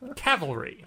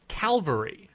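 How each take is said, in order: First: The l sound comes after the v sound. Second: The l sound comes before the v sound. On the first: The speaker calls it right. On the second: The speaker calls it wrong.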